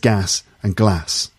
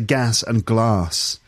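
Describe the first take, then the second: First: Glass has a short, flat a vowel. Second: Glass has a long, open ah vowel. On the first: "he says gas and glass" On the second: "Whereas I say gas and glass"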